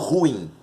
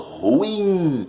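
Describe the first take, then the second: First: The stress is on the first syllable. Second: The stress is on the last syllable. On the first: The speaker calls it wrong. "Eu não falo ruim" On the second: The speaker calls it right. "eu falo ruim. A sílaba tônica é a primeira de trás para frente"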